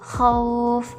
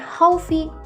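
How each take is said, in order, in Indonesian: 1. Huruf terakhir tidak diikuti huruf hidup. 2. Huruf terakhir diikuti huruf hidup. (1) "dilunakkan huruf hidupnya" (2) "bukan haufi"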